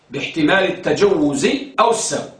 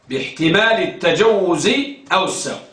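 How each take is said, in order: Both takes have the same delivery.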